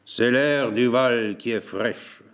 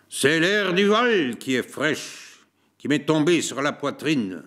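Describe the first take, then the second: First: Slow, flat resigned repeat; same resigned tone. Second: Dragging words. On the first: Host repeating his excuse about the valley air, slow and resigned. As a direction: say it slowly, shrugging it off. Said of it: "Du même ton qu'il disait". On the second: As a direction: let each word drag, worn out. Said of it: "traînant ses pas et ses paroles". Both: A narrator's reading.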